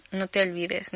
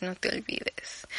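First: Said in the usual way. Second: Slow, breathy whispered reminder; susurrado, lento y confidencial. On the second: Shown as a demonstration. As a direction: lean in and whisper it like a secret. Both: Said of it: "repeated whispered".

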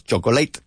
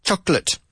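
First: CHOCOLATE as "cho-go-LATE", three syllables; wrong, Spanish-style chocolate. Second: CHOCOLATE as "CHOK-lut", two syllables; teacher's model "CHOC-lət"; correct chocolate. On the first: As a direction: show the mistake: chocolate ending in "late". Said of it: "no decimos chocolate". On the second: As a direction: stress CHOK, higher pitch, swallow the middle of chocolate. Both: Shown as a demonstration.

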